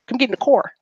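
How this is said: It is said in a West Coast accent.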